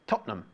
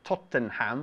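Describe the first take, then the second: First: The final syllable is a reduced 'um'. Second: The final syllable is a full 'ham'. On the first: The speaker calls it right. "We say Tottenham" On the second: The speaker calls it wrong. "We don't pronounce it Tottenham"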